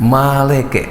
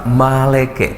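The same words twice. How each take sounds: Both takes have the same delivery.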